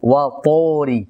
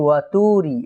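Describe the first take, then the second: First: The vowel after T sounds like a full 'o'. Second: The vowel after T sounds like a thin 'u'. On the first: The speaker calls it right. "হওয়া দরকার ছিল ওকারের মতো" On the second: The speaker calls it wrong. "অনেকেই ... এরকম বলে"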